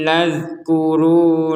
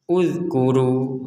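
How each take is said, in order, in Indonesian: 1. Kata ini langsung menyambung dari kata sebelumnya. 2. Kata ini dimulai sendiri dengan vokal 'u'. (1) "bisa digabungkan dari sini" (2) "maka ini dibaca uzkur"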